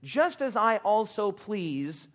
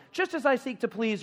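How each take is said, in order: First: Just as I also please, very slow with just stressed; slow, drawn-out cue. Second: Higher, eager Just as I seek to please; more enthusiasm. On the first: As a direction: draw it out for the congregation to finish. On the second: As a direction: pump up the crowd. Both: Shown as a demonstration. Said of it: "you didn't say that with enough enthusiasm".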